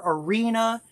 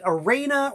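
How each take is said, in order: First: Arena said as "uh-REE-nuh"; ah-REE-na pronunciation. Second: Arena said as "uh-RAY-nuh"; ah-RAY-na pronunciation. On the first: Host offering the other surname guess, Arena pronounced uh-REE-nuh. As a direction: say Arena with a long "ee" in the stressed middle. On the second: Host guessing at his pal's surname, Arena pronounced uh-RAY-nuh. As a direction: say Arena with a long A, like "rain", in the stressed middle. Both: Shown as a demonstration. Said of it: "How do you pronounce your last name".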